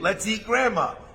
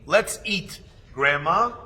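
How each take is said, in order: First: There is no pause before grandma. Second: There is a pause before grandma. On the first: Grandma is the food to be eaten. "if Had is a cannibal" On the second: Grandma is being called to come and eat. "your brother is showing kibbut avayim for the grandparents"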